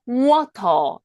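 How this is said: The t is pronounced as a clear t. "영국에서는 water 이렇게 발음하는 거고"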